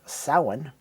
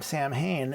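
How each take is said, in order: First: The name is said with a Gaelic pronunciation. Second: The name is said with an English pronunciation. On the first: This is the original pronunciation in the source language. "The correct pronunciation would be uh, Samhain in Gaelic" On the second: This is how the band's founder says the name. "is the way that [name] pronounces it"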